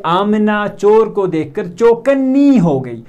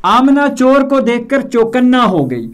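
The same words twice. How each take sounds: First: चौकन्नी ending in a long ee, said slowly; wrong feminine form. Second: चौकन्ना ending in a clear aa; correct unchanged form. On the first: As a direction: slowly model the mistake चौकन्नी. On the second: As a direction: model चौकन्ना in a raised teaching voice. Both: Shown as a demonstration. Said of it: "हम ऐसा नहीं बोलेंगे".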